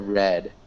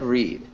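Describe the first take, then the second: First: The vowel is short, like 'red'. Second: The vowel is long, like 'reed'. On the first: It is the past tense form. The speaker calls it right. "How would you pronounce this in the past tense" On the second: It is the present tense form. The speaker calls it wrong. "Close. You, you said read"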